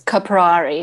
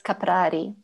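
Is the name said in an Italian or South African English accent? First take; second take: South African; Italian. First: The name is said with a South African accent. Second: The name is said with an Italian accent. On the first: "In the South African English accent" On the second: "in the Italian accents"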